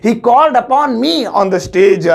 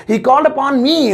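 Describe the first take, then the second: First: Slow careful English. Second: Slow second take, a bit higher; slow careful English repeat. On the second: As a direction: repeat it slowly for the class. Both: Shown as a demonstration. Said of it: "so English होगी".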